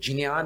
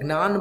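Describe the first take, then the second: First: Pronounced the way Sanskrit reciters say it. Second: Pronounced the way Gujarati speakers say it. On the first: "इसका शुद्ध उच्चारण ज और ञ से मिलकर" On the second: "जो गुजराती है वो ज्ञान बोलते हैं"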